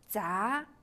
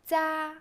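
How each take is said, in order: First: The pitch rises from mid to high. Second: The pitch stays high and level.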